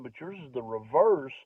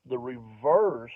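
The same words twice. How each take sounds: First: Said in the usual way. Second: Slow, over-explained reverse; drawn out reverse. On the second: Retold or imitated. A guy demonstrating the word to a comedian, slowly drawn out. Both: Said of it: "he even gave me the demonstration".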